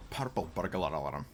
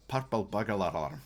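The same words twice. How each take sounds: First: Said in the usual way. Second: Lightly put-on Scottish accent; hint of Scottish brogue. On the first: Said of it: "That's weird". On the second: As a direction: roll the tongue twister in mild Scottish. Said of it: "when you put, like, a Scottish accent on".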